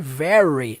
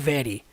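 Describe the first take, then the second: First: The r is curled back, like a caipira r. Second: The r is not curled back. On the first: The speaker calls it right. "o som do R é sempre aquele R caipira" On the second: The speaker calls it wrong. "não é very"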